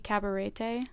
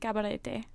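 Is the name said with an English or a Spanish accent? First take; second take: English; Spanish. First: The name is said with an English accent. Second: The name is said with a Spanish accent. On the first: "you could say it without and it'd just be Cabarete" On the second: "It's so much more fun to say with an accent"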